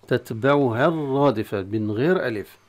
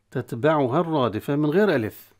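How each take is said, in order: Both takes have the same delivery.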